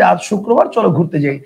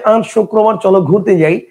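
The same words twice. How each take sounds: First: It is said in a plain, non-nasal voice. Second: It is said in a nasal voice.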